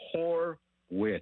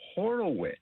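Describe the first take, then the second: First: The name is said with two syllables. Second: The name is said with three syllables. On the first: The speaker calls it right. "the correct pronunciation of Spencer Horwitz" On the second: The speaker calls it wrong. "is not Horowitz"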